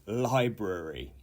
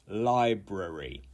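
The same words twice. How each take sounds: First: It uses the recommended full pronunciation of the word. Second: It uses the recommended full pronunciation of the word.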